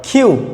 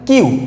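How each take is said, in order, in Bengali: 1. প্রথম ব্যঞ্জনটি একটি শ্বাসযুক্ত, অ্যাস্পিরেটেড k। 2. প্রথম ব্যঞ্জনটি একটি সাধারণ, আনঅ্যাস্পিরেটেড k। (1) "আজকের পর থেকে আমরা বলবো কিউ" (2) "যাকে আমরা আগে বলতাম কিউ"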